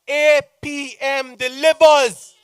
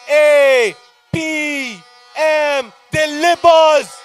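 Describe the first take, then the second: First: It is said at normal speed. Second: It is said slowly.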